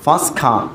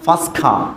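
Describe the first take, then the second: First: The t at the end of first is dropped. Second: The t at the end of first is dropped.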